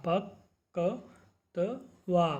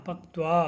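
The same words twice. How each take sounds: First: पक्त्वा broken into slow drawn syllables, प-क्-त्वा. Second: Said in the usual way. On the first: Shown as a demonstration. Teacher shows the class how to say it, slowly syllabic. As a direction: sound out पक्त्वा piece by piece. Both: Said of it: "इस प्रकार से आपको इन शब्दों का उच्चारण करना है".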